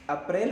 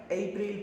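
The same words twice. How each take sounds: First: अप्रैल as 'up-RAIL', opening on a short uh; Hindi pronunciation. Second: अप्रैल opening on a long 'ay', then 'pril'; English pronunciation. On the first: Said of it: "अप्रैल होता है ना हिंदी में". (अप्रैल हिंदी उच्चारण में, शुरू में छोटा 'अ') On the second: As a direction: say अप्रैल as English 'AY-pril'. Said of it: "लेकिन इंग्लिश में क्या पढ़ते हैं". (अप्रैल को अंग्रेज़ी में 'एप्रिल' बोलें) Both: Shown as a demonstration.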